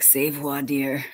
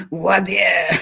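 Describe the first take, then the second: First: C'est voir dire said slowly as "say vwahr deer", French style; slow, careful French C'est voir dire, correcting them. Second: Put-on Voir dire in a higher, louder Boston accent, "wah dee-uh". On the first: Pretend. Correcting the Boston lawyers, slow mock-French pronunciation. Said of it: "I wanna be correcting 'em". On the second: Lawyers answering back in a hammed-up Boston accent. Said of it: "Because they say it funny".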